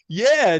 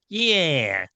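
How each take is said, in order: First: It is said in a relaxed California accent. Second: It is said in a nasal New York accent. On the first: "that's California, man" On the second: "that nasal New York"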